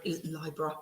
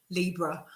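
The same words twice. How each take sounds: First: Libra said as LYE-bruh; LIE-bra pronunciation. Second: Libra said as LEE-bruh; LEE-bra pronunciation. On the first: Tarot reader trying a viewer's name, Libra as LIE-bra. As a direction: say Libra with a long "eye" in the first syllable. Self-corrects between two pronunciations. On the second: Tarot reader correcting a viewer's name, Libra as LEE-bra. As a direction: say Libra with a long "ee" in the first syllable. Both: Real, not acted.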